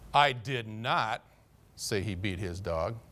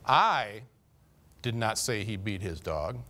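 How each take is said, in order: First: The word 'say' is stressed. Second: The word 'I' is stressed. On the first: The speaker may have implied it but never said it. "I might have inferred it, but I didn't say it" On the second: Someone else may have said it, but not the speaker. "Carl might have said he beat his dog, but I never said that"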